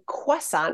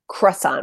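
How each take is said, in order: First: The sound after the c is a w. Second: The sound after the c is an r. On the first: "with a W" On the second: "with the R"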